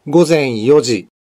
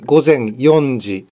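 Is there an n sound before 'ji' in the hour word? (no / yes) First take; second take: no; yes. First: The hour word has no n before ji. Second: The hour word has an n before ji. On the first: The speaker calls it right. "Yang benar" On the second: The speaker calls it wrong. "bukan gozen yonji"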